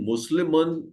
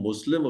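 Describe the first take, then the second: First: The word ends with a final vowel and n. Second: The word ends bare, without the final vowel. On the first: "आखिरी हरकत को हम छोड़ देते हैं सादगी के लिए" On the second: "मुस्लिमन के बजाय हम मुस्लिम"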